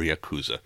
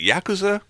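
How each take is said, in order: First: Yakuza as ya-KOO-za; second-syllable stress. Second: Yakuza as YAK-uza, first syllable "yak"; alternative pronunciation. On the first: Host offering another option, Yakuza stressed ya-KOO-za. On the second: Host asking how it's said, Yakuza stressed YAK-uza. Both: Shown as a demonstration. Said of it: "probably pronouncing Yakuza wrong".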